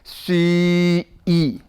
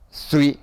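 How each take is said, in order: First: The word is said slowly and drawn out. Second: The word is said at a normal speed.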